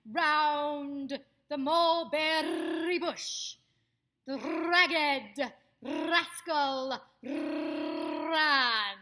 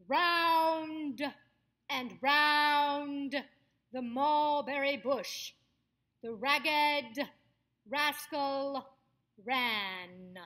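First: Long trilled R in ROUND, MULBERRY, RAGGED, RASCAL, RAN, very loud and slow; rolled R's. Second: Loud and drawn out, open mouth on each word; projected stage voice. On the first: Coach shows off rolling R's, RAGGED RASCAL RAN loudly trilled. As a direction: project it, stretching every R in RAGGED RASCAL RAN into a roll. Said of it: "you can do the R's too". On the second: Coach demonstrates a stage exercise for actors, loud projected voice. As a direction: project to the back of the house, opening up the final sounds. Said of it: "sound projects to the back of the house".

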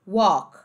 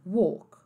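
First: "walk" with open aw, silent L; American open vowel. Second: "walk" with rounded closed oh; British closed vowel. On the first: Teacher contrasting accents, American open "walk". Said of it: "Então, americano". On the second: Teacher contrasting accents, British closed "walk". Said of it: "Britânico". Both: Shown as a demonstration.

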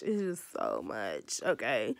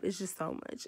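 First: Low slow exasperated repeat; heavy sigh of a line, deep and slow; deep, drawn-out exasperated groan-voice. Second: Said in the usual way. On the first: Acted. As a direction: drop way lower and slow it down, fed up. Venting about editing hassle.

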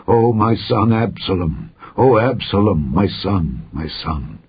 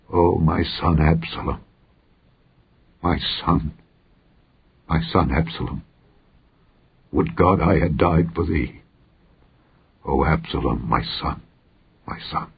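First: Understated cry of grief, fading at the end. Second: Weeping grief. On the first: King covers his face and mourns Absalom, crying out mildly. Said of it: "the king cried with a loud voice". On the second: King mourns his dead son Absalom, grieving softly. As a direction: grieve softly and haltingly, fading away to nothing. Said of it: "and wept. And as he went, thus he said". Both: A narrator's reading.

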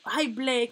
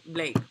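First: Delighted. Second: Said in the usual way. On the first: Real, not acted. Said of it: "Me encanta". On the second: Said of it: "Vale, ese".

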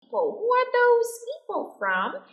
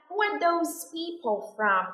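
First: "those" said much higher with a rising tune; slow model read pushing "those" up high; stress on those. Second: Said in the usual way. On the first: Shown as a demonstration. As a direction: lift and stretch "those" to show distance. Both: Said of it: "Khoảng cách đứng xa và danh từ là people".

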